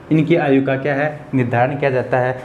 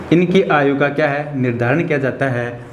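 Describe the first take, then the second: No difference in how they are said.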